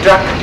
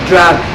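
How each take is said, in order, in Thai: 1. สระออกเสียงสั้นค่ะ 2. สระออกเสียงยาวค่ะ (1) "ไม่ใช่เสียงสั้นนะคะไม่ใช่" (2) "มันเป็นเสียงยาว"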